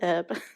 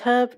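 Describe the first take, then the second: First: The word starts with a vowel, h silent. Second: The word starts with an audible h sound. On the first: The speaker calls it wrong. "not herb" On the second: The speaker calls it right. "there's an H in there"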